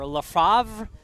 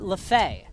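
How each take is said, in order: First: The name ends with a 'vre' sound. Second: The name ends with an 'ay' sound. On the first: The speaker calls it wrong. "you think it's LaFavre" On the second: The speaker calls it right. "but it's actually LaFay"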